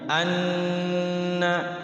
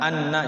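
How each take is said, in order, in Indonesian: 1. Huruf n ditahan dengan dengung hidung. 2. Huruf n diucapkan biasa, tanpa dengung hidung. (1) "tapi anna, anna digunakan dulu kayak idgham bigunnah" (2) "Jangan diizharkan anna, jangan begitu"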